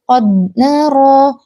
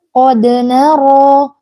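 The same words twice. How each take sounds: First: The d is held without any bounce. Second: The d is released with a light bounce. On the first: The speaker calls it wrong. "Enggak boleh qad nara" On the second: The speaker calls it right. "tapi qad nara, qad nara ini adalah qalqalah sughra"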